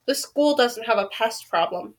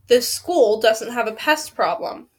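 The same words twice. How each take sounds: First: Flat. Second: Slower, firmer denial; firm repeat. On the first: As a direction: deny it with no interest at all. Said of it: "Mister Montgomery said flatly". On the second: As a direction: spell it out slowly, word by word. Janitor repeats his denial. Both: A narrator's reading.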